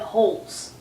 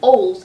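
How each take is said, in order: First: The word starts with a clear h sound. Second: The word starts with a vowel, no h sound. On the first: The speaker calls it right. "instead of holes" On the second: The speaker calls it wrong. "it really sounds like oles"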